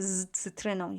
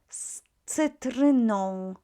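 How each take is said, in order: First: The first sound is a voiced z. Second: The first sound is a voiceless s. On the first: The speaker calls it wrong. "make it voice" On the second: The speaker calls it right. "our z will be pronounced as s"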